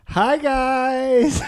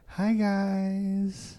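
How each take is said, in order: First: It is said with a lot of energy. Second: It is said with calmer, lower energy.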